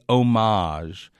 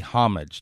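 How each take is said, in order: First: It is pronounced with a French-style pronunciation. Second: It is pronounced the anglicized English way. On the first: The speaker calls it wrong. "to say homage is hopelessly pretentious" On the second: The speaker calls it right. "That's been in the language for 800 years"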